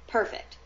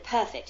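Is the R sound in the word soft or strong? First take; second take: strong; soft. First: The R is strong, with an American sound. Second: The R is soft, with a slightly British sound. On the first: This is the speaker's usual way of saying it. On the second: This is how the character says it.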